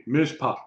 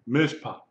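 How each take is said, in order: Both takes have the same delivery.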